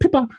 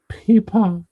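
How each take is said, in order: First: It is said quickly in a British accent. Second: It is said slowly in an Australian accent.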